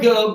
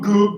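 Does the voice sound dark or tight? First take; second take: tight; dark. First: The voice is raised, high and tight. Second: The voice is low and dark with depth. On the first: The speaker calls it wrong. "where I'm really raising" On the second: The speaker calls it right. "I'm feeling more depth to the sound"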